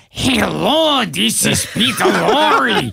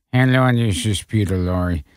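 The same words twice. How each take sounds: First: Put-on higher, proper Peter Lorre accent. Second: Terrible Peter Lorre. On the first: Director corrects with a real Peter Lorre voice. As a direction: show him how Lorre should sound. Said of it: "And they go, "No, no". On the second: Retold or imitated. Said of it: "He did a terrible Peter Lorre imitation".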